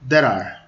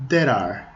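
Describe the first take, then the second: No difference in how they are said.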